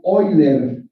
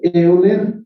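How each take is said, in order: First: It begins with an 'oy' sound, rhyming with boiler. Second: It begins with an 'eh-oo' sound, read as spelled. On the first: The speaker calls it right. "se pronuncia Euler, como si dijeran ustedes boiler" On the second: The speaker calls it wrong. "se escribe Euler"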